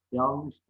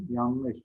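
First: "yanlış" with l before n, yalnış; swapped n and l in "yanlış"; misspelt form. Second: Said in the usual way. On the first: Shown as a demonstration. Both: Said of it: "yanlış değil".

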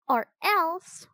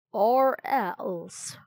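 First: Put-on high-pitched defiant girl; defiant threat. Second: Raspy, mocking echo; raspy Raven King. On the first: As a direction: throw down a high little threat. Annie backs up Jack's threat. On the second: A narrator's reading. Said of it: "he asked in a raspy voice".

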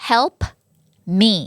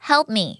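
First: HELP, pause, ME; separated words. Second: "Help me" linked, p unreleased; closed-lip P. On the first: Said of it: "ไม่ออกเสียงตัว P แบบเพอ". (แยกคำ Help กับ me เว้นจังหวะ) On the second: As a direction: close the lips on Help's p and go straight into me. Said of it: "P ปิดปากเลย". (ปิดปากที่ p ใน Help แล้วต่อ me) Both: Shown as a demonstration.

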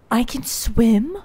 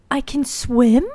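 First: Gasping disbelief. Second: Put-on voice. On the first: Discovers swimming. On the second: Repeats in put-on voice. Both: Real, not acted.

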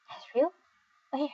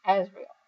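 First: "Azrael?" echoed with a high questioning rise; puzzled question. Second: Said in the usual way. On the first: Acted. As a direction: ask "Azrael?" as if looking around for him. Puzzled echo, then jokes "Where?.

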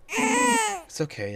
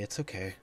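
First: High, slow, blubbering comfort; fake-sob it to the baby; mock crying. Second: Said in the usual way.

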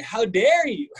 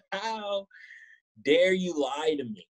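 First: High, loud hammed-up indignation; fake-offended cry, pitched up; mock outrage. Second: Theatrical hurt, slowed; mock wounded reproach. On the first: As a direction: throw it at her like a soap star. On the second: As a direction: drag it out like a betrayed soap hero. Mock outrage at the catfish.

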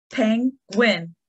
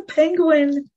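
First: "Penguin" split as pen, guin; two distinct beats on "Penguin" with a pause; clapped-out syllables. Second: Said in the usual way. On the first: Shown as a demonstration. Teacher clapping with children, "Penguin" in two parts. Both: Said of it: "we're gonna clap out the syllables".

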